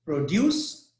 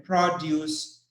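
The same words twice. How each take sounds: First: "produce" with stress on DUCE, as a verb; teacher modelling verb "produce", pro-DUCE; stress on second syllable. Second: "produce" with stress on PRO, as a noun; teacher modelling noun "produce", PRO-duce; stress on first syllable. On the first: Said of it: "as a verb". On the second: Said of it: "produce as a noun". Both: Shown as a demonstration.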